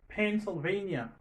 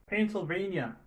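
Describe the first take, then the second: The two takes are said the same way.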